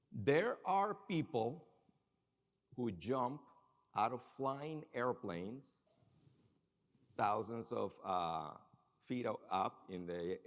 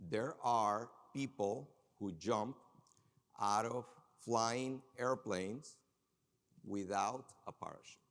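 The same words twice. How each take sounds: First: Slow teasing build to a puzzle; slow dramatic buildup. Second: Slow emphatic repeat. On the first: Speaker to audience, slow suspenseful setup. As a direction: draw out each phrase slowly for suspense. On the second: Speaker to audience, slow emphatic repeat. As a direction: stretch the words slowly, leaning in. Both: Acted.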